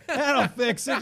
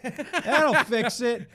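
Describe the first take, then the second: First: High, loud laughing repeat; laughing high stoner voice. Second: High, loud, slow laughing voice; laughing high stoner voice. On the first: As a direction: laugh through it, giddy and loud. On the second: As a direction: cackle it out like a giddy stoner. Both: Retold or imitated. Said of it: "I'm like".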